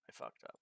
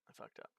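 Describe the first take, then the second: First: It is said loudly and with lots of energy. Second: It is said plainly, without much energy.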